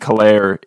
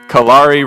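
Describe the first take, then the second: First: The name ends rhyming with air. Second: The name ends rhyming with safari. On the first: The speaker calls it wrong. "the reason I was thinking Kalair" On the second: The speaker calls it right. "Kalari rhymes with Safari"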